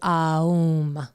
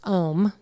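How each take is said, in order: First: The vowel glides from A into U. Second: The vowel is a single plain O sound. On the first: This is the ancient original form. The speaker calls it right. "A U M is the correct way to pronounce Om" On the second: This is the modern commercial form. The speaker calls it wrong. "That's a commercialized version"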